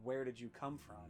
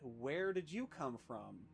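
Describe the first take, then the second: First: The stress is on come. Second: The stress is not on come.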